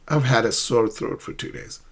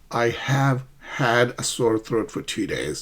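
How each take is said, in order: First: "I have" is contracted and linked to "had". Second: "I have" is said as two full words. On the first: The speaker calls it right. "But try to link haven't had" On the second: The speaker calls it wrong. "rather than saying"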